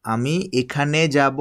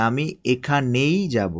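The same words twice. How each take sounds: First: Said in the usual way. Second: এখানেই drawn out and leaned on, slow; teacher stressing এখানেই. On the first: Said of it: "এক কথা, আরেকটা হচ্ছে কি". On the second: Shown as a demonstration. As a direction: press the word এখানেই, slowly. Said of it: "দুটা বিষয় কিন্তু ভিন্ন জিনিস".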